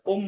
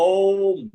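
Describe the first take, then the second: First: ওম said short, vowel not held. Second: ওম stretched long and louder; drawn-out Om. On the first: Teacher shows students what not to say, short ওম. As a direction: cut ওম short, as the mistaken form. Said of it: "ওম বলবো না". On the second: Teacher shows students the correct Om, long ওম. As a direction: hold the vowel of ওম long and heavy. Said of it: "একটু দীর্ঘ করে উচ্চারণ করতে হবে". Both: Shown as a demonstration.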